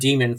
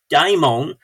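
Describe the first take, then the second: First: The word is said in its English form. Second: The word is said in its Greek form. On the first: The later word for an evil spirit. "where we get our word demon from" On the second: The pagan term for a mediating spirit. "the term daimon"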